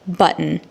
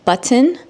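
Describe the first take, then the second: First: The middle t sound is swallowed in the throat. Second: The middle t sound is clearly pronounced. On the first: The speaker calls it wrong. "Don't say" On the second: The speaker calls it right. "Just continue to say"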